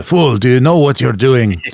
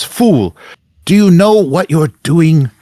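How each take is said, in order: First: Lightly voiced indignant zealot, slightly raised; Zacharias. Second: High, loud outraged villain cry; Zacharias. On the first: Game master retries Zacharias's voice, mildly theatrical rebuke. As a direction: try on a scolding villain voice, more contained. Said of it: "What's his voice?". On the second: Acted. Game master as Zacharias rebukes the interrupter, outraged and loud. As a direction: project it high and indignant, stretching the words. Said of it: "so Zacharias ... and says".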